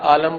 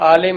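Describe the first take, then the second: First: The second syllable has an 'a' vowel. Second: The second syllable has an 'i' vowel. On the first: The speaker calls it wrong. "Punjabi ज़ुबान ... उस लहजे में इसको बोला जाए तो लोग आलम बोल देते हैं" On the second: The speaker calls it right. "जो लफ्ज़ आलिम है"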